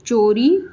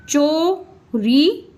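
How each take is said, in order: First: Said in the usual way. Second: Slow sounding out. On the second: Shown as a demonstration. Teacher sounding out चोरी slowly for pupils. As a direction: stretch चोरी very slowly, rising at the end. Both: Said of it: "ई का sound मिला इसमें".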